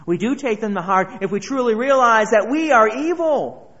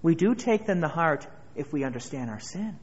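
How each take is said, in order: First: Louder preaching. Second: Said in the usual way. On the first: Acted. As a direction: build it up loud to "evil". Repeated phrase, second loud.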